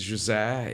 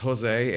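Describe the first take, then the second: First: The name is said the Portuguese way. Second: The name is said the Spanish way. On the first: "in Portuguese it's" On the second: "Spanish it's"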